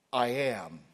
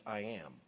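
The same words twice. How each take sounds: First: "I am" punched loud, with the weight on "I"; emphatic. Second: Said in the usual way. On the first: Shown as a demonstration. Preacher showing congregation the emphasized form, emphatic "I am". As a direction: declare "I am" forcefully, leaning on "I". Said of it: "Emphatic. Emphasized". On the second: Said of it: "it's more emphasized".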